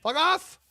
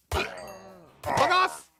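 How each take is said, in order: First: Quick, high, loud curse; short yell. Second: High shout, "off" stretched with a long rise; taunting drawn-out curse; drawn-out yell. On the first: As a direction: spit it out fast at the raiders. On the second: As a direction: hold the word "off" as you yell. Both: Real, not acted. Yelling at raiders in game.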